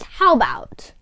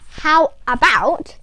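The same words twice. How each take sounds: First: It is said quickly and run together. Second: It is said slowly and carefully. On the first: "when you say it in a quick pace" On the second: "Instead of how about"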